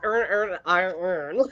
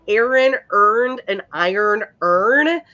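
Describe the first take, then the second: First: The words merge into near-identical earn sounds. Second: Each word is pronounced distinctly and carefully. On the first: "every fucking one of us says earn, earn, and iron earn" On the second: "to enunciate it properly"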